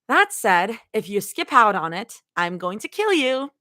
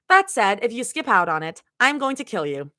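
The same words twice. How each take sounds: First: It is said in a playful, unserious tone. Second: It is said in a serious tone.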